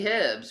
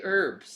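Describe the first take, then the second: First: The word starts with an h sound. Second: The word starts without an h sound. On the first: This is how people in another country say it. "They say hibs" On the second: This is how Americans say it. "We say herbs"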